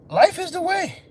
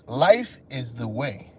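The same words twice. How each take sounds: First: High, ringing, pressed hard; high emphatic. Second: Low, soft, slow sermon line; low slow preaching. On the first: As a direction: proclaim it up high. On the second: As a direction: intone it like a guru. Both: Shown as a demonstration. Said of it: "repeated for effect".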